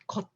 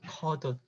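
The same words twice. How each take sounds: First: The final consonant links over without changing. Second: The final consonant changes before linking over. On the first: The speaker calls it wrong. "this is not" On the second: The speaker calls it right. "representing seven 받침"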